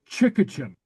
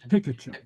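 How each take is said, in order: First: The word begins with a ch sound. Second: The word begins with a hard t sound. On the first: This is how a native word would sound. "if that were a Gallic pronunciation, it'd be something like chickatchen" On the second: The word is borrowed from another language. "It's a loan word, so it's ticketchen"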